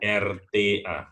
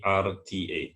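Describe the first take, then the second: First: The letters are named with Indonesian letter sounds. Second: The letters are named with English letter sounds. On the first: The speaker calls it wrong. "bukan R T A" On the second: The speaker calls it right. "tapi R T A"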